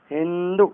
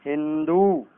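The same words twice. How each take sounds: First: हिंदू with a short final "u"; wrong short ending. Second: हिंदू with a long final "oo"; correct long ending. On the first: Teacher showing the error, हिंदू with short final vowel. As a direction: cut the end of हिंदू short. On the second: Teacher correcting it, हिंदू with long final vowel. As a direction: draw out the end of हिंदू. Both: Shown as a demonstration. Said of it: "गलत".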